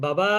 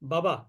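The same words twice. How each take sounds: First: A vowel is drawn out long. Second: The vowels are said short, not drawn out. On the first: "এটা কিন্তু মাদ হয়ে গেল" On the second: "এটা কিন্তু মাদ হলো না"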